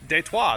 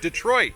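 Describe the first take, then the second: First: The name is pronounced the French way. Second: The name is pronounced the usual English way.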